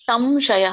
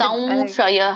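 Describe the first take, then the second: First: The nasal before 'sh' sounds like 'm'. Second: The nasal before 'sh' sounds like nasal 'v'. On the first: The speaker calls it wrong. "ಸಂಶಯ ಅಲ್ಲ ಮಾತಾಜಿ" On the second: The speaker calls it right. "ಸಂ ವ, ಮೂಗಿನಿಂದ ವ ಬರುತ್ತಲ್ಲ"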